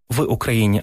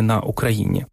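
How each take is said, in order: First: «в Україні» with «в» clearly stressed as the right choice; correct form. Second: «на Україні» with «на» stressed, said low as the rejected form; wrong form. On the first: Showing the host the correct preposition, firm stress. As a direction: set «в» apart firmly as the right usage. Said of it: "поляки змогли без помилок казати". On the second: Contrasting the wrong preposition for the host, lower dismissive stress. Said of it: "а не". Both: Shown as a demonstration.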